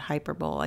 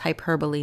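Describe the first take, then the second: First: It ends like the word 'bowl'. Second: It ends with the syllables 'bo-lee'. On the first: The speaker calls it wrong. "not hyperbole" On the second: The speaker calls it right. "Pronounced hyperbole"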